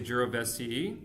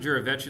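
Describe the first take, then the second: First: The name is pronounced with English-style sounds. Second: The name is pronounced with Italian-style sounds. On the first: "In English, you might say Jirovecii" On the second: "I pronounce it Jirovecii like it's Italian"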